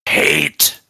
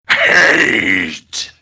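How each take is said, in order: First: It is said with little conviction. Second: It is said with strong conviction.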